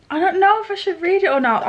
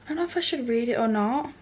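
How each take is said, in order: First: Higher and louder, dramatic despair; exasperated outburst. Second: Said in the usual way. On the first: Real, not acted. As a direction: throw the line out in mock agony. Repeats dilemma, second louder.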